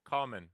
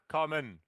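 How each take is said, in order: First: The stress is on the first syllable. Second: The stress is on the second syllable. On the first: The speaker calls it right. "The the stress is on the first syllable" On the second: The speaker calls it wrong. "It's not common"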